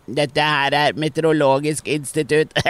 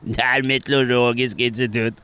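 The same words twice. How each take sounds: First: Slow, nose-held announcer voice; mock nasal weather-service voice; pinched nose. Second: A lighter nose-held repeat; said again through a held nose; mild nasal mock announcement; pinched nose. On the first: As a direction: hold your nose and announce it. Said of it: "tar hun seg for nesen". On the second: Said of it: "peker hun på mikrofonen".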